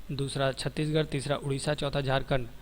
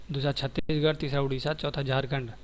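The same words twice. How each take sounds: No difference in how they are said.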